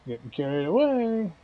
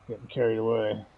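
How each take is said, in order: First: Higher, playful sing-song; sing-song repeat. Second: Said in the usual way. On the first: Shown as a demonstration. Laughing at his own slip, higher sing-song repeat. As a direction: toss it back up high, teasing yourself.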